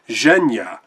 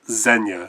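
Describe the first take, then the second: First: It begins with a zh sound. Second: It begins with a plain z sound. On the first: The speaker calls it right. "pronounced like S in pleasure" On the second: The speaker calls it wrong. "as opposed to when I was doing it as Zenya"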